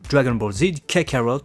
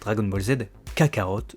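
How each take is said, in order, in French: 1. Le titre se prononce à l'anglaise. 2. Le titre se prononce à la française. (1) "ou anglaise" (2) "la prononciation française"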